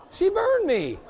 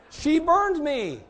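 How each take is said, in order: First: High, loud, half-laughing cry; indignant outcry. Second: Slow, high, loud wail of mock hurt; stretched-out mock lament. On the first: Retold or imitated. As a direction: announce the burn in mock outrage. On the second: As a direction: drag it out, still amazed. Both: Retelling getting burned.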